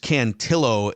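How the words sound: The name is said with a suburban Minnesota accent.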